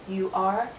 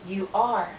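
No difference in how they are said.

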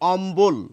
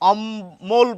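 First: The b sound is clearly pronounced in the word. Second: The b sound is dropped from the word. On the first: The speaker calls it right. "আমরা বলছি অম্বল" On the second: The speaker calls it wrong. "আমরা কিন্তু অম্বল বলছি না"

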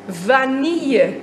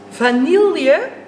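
First: The L sound is not pronounced. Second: The L sound is clearly pronounced. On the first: The speaker calls it right. "Je spreekt de L helemaal niet uit in het woord vanille" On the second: The speaker calls it wrong.

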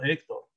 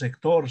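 First: The stress is on the first syllable. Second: The stress is on the last syllable. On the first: The speaker calls it right. "sino Héctor" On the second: The speaker calls it wrong. "tú no pronuncias Héctor"

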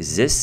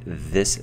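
First: The word begins with a z sound. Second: The word begins with a th sound. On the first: The speaker calls it wrong. "If you say zis, that, these, those, we understand. Maybe if you're maybe someone with a French accent" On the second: The speaker calls it right. "but better is this"

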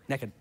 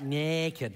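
First: The word is said short and quick. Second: The word is said slowly and drawn out. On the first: The speaker calls it right. "You got to say it quick" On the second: The speaker calls it wrong. "You like to draw that out"

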